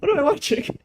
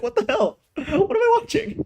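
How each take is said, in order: First: High, whiny cry of disbelief; mock despair. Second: High, disbelieving squeal of what the hell; incredulous. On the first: Reviewer despairing at the show, whiny mock cry. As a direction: wail it like you're about to cry. Baffled by the anime plot. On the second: Reviewer reacting to the anime plot, incredulous high squeal. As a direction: pitch shooting up in baffled disbelief. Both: Real, not acted.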